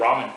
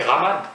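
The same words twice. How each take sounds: First: "ramen" with an American English r; American-accented "ramen"; American pronunciation. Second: "ramen" the French way, with a French r; French-accented "ramen"; French pronunciation. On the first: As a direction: say "ramen" as Americans do, first syllable stressed. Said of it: "Avec l'accent américain, bien sûr, en anglais". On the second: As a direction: say "ramen" as a French word, ending in a clear n. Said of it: "Comment on dit en français ramen?". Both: Shown as a demonstration.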